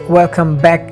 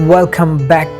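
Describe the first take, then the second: Both takes have the same delivery.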